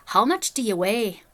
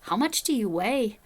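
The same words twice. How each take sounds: First: Slow, louder Northern Irish accent attempt. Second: Weaker, slow attempt at a Northern Irish accent. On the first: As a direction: imitate a Northern Irish man, drawing it out. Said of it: "when I do a Northern Irish accent". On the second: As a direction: imitate a Northern Irish accent, not quite convincingly. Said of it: "See, I did worse that time".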